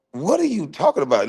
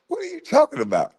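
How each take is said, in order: First: Said in the usual way. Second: High, fast disbelieving squawk; incredulous outburst. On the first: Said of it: "repeated with higher pitch". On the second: Real, not acted. Scoffing at the host's question, high fast incredulous outburst. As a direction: shoot up in pitch in disbelief.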